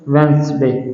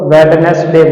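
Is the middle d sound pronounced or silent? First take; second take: silent; pronounced. First: The middle d sound is silent. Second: The middle d sound is pronounced. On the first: The speaker calls it right. "इसको बोलेंगे वेंसडे।" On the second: The speaker calls it wrong. "इसको वेडनेसडे बोलते हैं, जो कि गलत है।"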